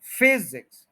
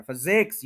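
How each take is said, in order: First: physics as FEE-ziks, FEE high and louder, end falling; stress on first syllable. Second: physics as fuh-ZEKS, end long and rising; stress on second syllable. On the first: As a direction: hit FEE, let ZIKS drop away. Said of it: "फिज के ऊपर stress है". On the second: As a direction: push the weight onto ZEKS in physics. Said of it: "x पे stress कर दिया". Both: Shown as a demonstration.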